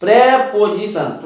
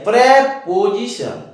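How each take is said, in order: Both takes have the same delivery.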